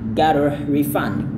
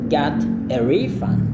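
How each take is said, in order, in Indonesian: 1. Tekanannya ada di suku kata kedua. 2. Tekanannya ada di suku kata pertama. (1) "kurang enak" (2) "Enaknya adalah"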